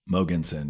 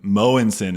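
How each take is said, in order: First: The name is said with English-style sounds. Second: The name is said with Danish-style sounds.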